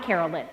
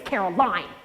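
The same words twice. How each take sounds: First: "Carolyn" said with a short final "lyn", like "lin"; wrong name. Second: "Caroline" said with a long final "line", rhyming with "fine"; correct name. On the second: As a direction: stress "Caroline" ending in "-line". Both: Shown as a demonstration. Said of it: "tell her your name is Caroline, not Carolyn".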